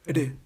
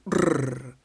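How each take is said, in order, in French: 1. Le R est plus faible, sans longue vibration. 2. Le R est fort, avec la langue qui vibre. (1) "un son plus faible" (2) "Un son fort"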